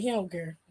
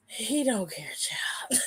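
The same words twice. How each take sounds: First: Said in the usual way. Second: Whispery, breath-only repeat trailing into a laugh; hushed aside. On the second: Real, not acted. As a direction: say it under your breath in disbelief. Repeats remark under breath, amused.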